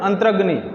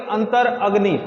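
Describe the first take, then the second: First: The parts are joined quickly into one word. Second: The two parts are said separately, apart. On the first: The speaker calls it right. "इसको झटके से बोलेंगे" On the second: The speaker calls it wrong. "अब ऐसे नहीं बोलेंगे अंतर अग्नि, तो अंतर अलग हो जाएगा"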